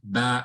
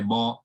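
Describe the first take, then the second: First: The syllable is pronounced light, with an empty mouth. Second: The syllable is pronounced heavy, with a full mouth. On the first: The speaker calls it right. "If the letter before it is light, the alif will be light" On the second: The speaker calls it wrong. "We don't say ba"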